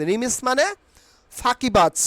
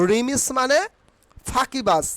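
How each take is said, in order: Both takes have the same delivery.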